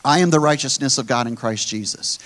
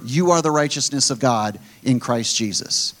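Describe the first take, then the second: First: "am" leaned on, falling at the end; a confession with weight on "am"; stress on am. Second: "you" hit first and hardest, falling close; telling the believers, with stress on "you". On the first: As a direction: declare it, pressing on "am". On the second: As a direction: point it at them with "you". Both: Shown as a demonstration. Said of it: "If you're a believer".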